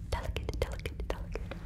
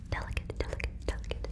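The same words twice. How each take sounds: The two takes are said the same way.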